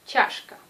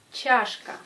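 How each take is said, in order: First: "Чашка" whispered; whispered demo. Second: "Чашка" said aloud; voiced demo. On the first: Teacher whispers the word for students, voiceless. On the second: Teacher shows students the word, louder. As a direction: say "Чашка" out loud. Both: Shown as a demonstration.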